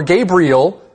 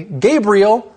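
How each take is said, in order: First: GABRIEL given three syllables, "Gay-bree-ul". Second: GABRIEL squeezed into two syllables, "Gabe-ryul". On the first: Co-host counting his name's syllables, "Gabriel" said as three. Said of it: "that could be three syllables". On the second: Co-host counting his name's syllables, "Gabriel" said as two. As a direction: say "Gabriel" in just two beats. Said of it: "that's two syllables". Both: Shown as a demonstration.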